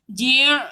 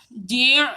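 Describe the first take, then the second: No difference in how they are said.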